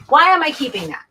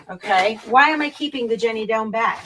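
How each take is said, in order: First: Higher, louder, incredulous self-question; why on earth am I keeping this; catching herself mid-sort, amazed; baffled at herself. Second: Said in the usual way. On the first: Real, not acted. Questioning her own clutter.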